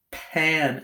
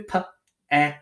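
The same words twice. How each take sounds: First: Said in the usual way. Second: "Pa-an" as separate sounds, gaps between each; slow sounding out. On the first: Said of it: "Sound out as you need to". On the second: Shown as a demonstration. Teacher helping pupils sound out a syllable, slow and segmented. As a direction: stretch "Pa-an" apart, sound by sound. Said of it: "Say it slowly. Sound out".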